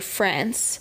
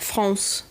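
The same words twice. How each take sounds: First: It is said with an English accent. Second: It is said with a French accent. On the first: This is how English speakers say it. "we say France" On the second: This is how French speakers say it. "they say France"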